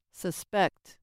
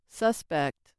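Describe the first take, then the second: First: Suspect as a verb, suh-SPECT; second-syllable stress. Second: Suspect as a noun, SUS-pect; first-syllable stress. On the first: Teacher showing the verb form, second-syllable stress. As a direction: reduce the start of "suspect", stress the end. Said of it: "on the second syllable, they act as verbs". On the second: Teacher showing the noun form, first-syllable stress. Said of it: "With stress on the first syllable". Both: Shown as a demonstration.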